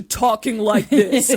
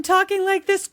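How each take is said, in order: First: Mock grown-man voice. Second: Put-on higher-pitched boy before his voice breaks; mock boyish voice. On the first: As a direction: drop it into a manly register. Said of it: "to talking like this". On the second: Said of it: "he went from talking like this". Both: Shown as a demonstration.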